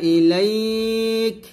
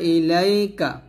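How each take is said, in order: First: The word ends on a bare consonant. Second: The word ends on a final vowel sound. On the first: The reader stops at this word. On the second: The reading continues into the next words.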